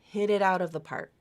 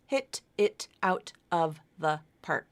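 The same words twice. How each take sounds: First: Each t is a soft flap, linked smoothly. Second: Each t is a crisp, separate stop sound. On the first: The speaker calls it right. "Use the flap, and now it sounds very smooth" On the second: The speaker calls it wrong. "here's without linking"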